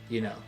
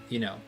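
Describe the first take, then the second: Both takes have the same delivery.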